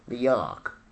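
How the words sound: It is said in a New York accent.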